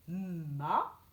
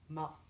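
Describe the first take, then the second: First: MA with the M held before the A; sounded out. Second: Said in the usual way. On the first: Shown as a demonstration. Teacher repeating for young pupils, MA sounded out. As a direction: hum into the M of MA, then release it. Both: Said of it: "ça fait ma".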